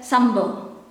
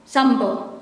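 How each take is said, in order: Both takes have the same delivery.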